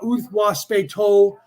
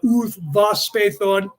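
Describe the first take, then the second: First: It is said with a W sound and t. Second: It is said with a V sound and th. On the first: The speaker calls it right. "It's a W" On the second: The speaker calls it wrong. "there's no V sound"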